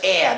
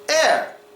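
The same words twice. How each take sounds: First: The final R sound is dropped. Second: The final R sound is clearly pronounced. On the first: "make the R disappear after strong A sounds. So they would say it like this" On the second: "we usually pronounce the R"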